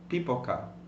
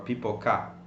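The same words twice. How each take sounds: First: The stress falls on the middle syllable. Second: The stress falls off the middle syllable. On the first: The speaker calls it right. "Why do you say pipoca" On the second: The speaker calls it wrong. "and not pipoca"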